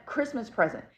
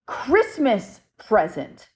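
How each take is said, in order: First: Said in the usual way. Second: Slow, drawn-out "Christmas present" in a light spirit-box voice. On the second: Retold or imitated. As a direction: stretch "Christmas present" out slowly like a ghost's message. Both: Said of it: "He literally said".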